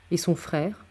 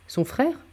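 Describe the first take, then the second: First: Tentative, understated question with a slight rise; timid question. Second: Higher-pitched echo, rising at the end; questioning echo. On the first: D'Artagnan asks Athos about the brother, timidly. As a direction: venture it timidly, a little softly. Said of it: "ajouta timidement D'Artagnan". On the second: Athos repeats D'Artagnan's question back, questioning echo. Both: A narrator's reading.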